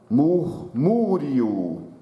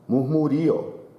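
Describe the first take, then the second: First: The stress falls on the syllable mu. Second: The stress falls on the syllable ri. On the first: "Ele está acentuado, com acento agudo" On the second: "o som forte seria o ri"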